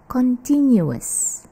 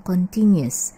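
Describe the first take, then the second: First: CONTINUOUS as con-TIN-yu-us; correct continuous. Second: CONTINUOUS said as continues, con-TIN-yus. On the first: Teacher contrasts it with continues, full ending. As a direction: separate yu and us in CONTINUOUS. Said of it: "kalau yang ini bacanya adalah". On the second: Teacher explains continue plus S, short ending. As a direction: give CONTINUOUS only three syllables. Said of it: "bacanya continuous". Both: Shown as a demonstration.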